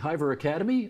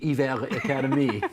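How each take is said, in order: First: The name is said with an English accent. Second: The name is said with a Quebec French accent.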